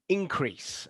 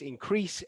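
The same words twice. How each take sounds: First: The stress is on the first syllable. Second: The stress is on the second syllable. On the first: It is used as a noun. "so it is the first syllable" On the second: It is used as a verb. "this one is the second syllable"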